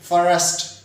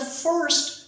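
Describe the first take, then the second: First: The word is split into two syllables. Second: The word is said as one syllable. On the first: The speaker calls it wrong. "कुछ लोग कह देते हैं फॉरेस्ट, फॉरेस्ट नहीं है भाई" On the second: The speaker calls it right. "एक सेलेबल है फर्स्ट"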